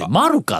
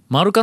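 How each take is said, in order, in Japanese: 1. 最初の音節が高いです。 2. 単語全体が平板です。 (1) "マルサとかバルサとかの前にアクセントがある発音で非常に違和感を覚えました" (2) "マルカの発音は平坦な"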